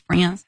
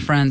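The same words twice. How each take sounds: First: It is said in her Southern accent. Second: It is said without a Southern accent.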